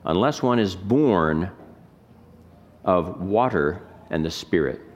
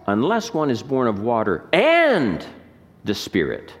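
First: It is read flat, with equal weight. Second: It is read with inflected emphasis on words.

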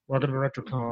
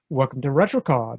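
First: It is said in a bored, flat way. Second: It is said in an enthusiastic, fresh way.

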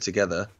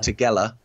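First: The word is said with its standard pronunciation. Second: The word is said with a childlike mispronunciation. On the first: This is the usual adult pronunciation. The speaker calls it right. "instead of together" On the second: This is how a young child says the word. The speaker calls it wrong. "Law said"

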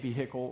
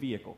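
First: It is said with a Southern pronunciation. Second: It is said with a non-Southern pronunciation. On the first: "and I say vehicle" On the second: "rather than vehicle"

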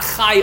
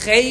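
First: The vowel sounds like 'eye'. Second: The vowel sounds like 'ay'. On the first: The speaker calls it wrong. "it's not Chai Olamim" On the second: The speaker calls it right. "it's Chei Ha'olamim, with the Tzere"

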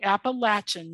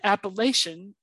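First: It is said the way locals say it. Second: It is said the way outsiders say it. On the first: This is how people from the region say it. "as pronounced by them" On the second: This is how people from elsewhere say it. "as pronounced by everybody else"

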